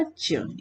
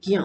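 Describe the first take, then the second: First: ज्य said as "jya"; soft j opening on ज्य; correct pronunciation. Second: ज्ञ said as "gya"; hard g opening on ज्ञ; wrong pronunciation. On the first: Teacher giving the right sound, ज्य as "jya". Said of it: "इसका pronunciation होगा". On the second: Teacher showing the usual mistake, ज्ञ as "gya". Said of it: "जो गलत है". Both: Shown as a demonstration.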